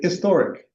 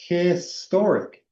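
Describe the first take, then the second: First: The H at the start is silent or barely there. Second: The H at the start is breathed out clearly. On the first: This is how people in England say it. "They say historic. They don't aspirate the H" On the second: This is how Americans say it. "I aspirate the H like historic"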